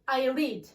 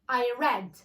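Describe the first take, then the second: First: Read has a long ee vowel, like need. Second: Read has a short e vowel, like bed. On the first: The action happens now. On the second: The action happened in the past. "yesterday البارح"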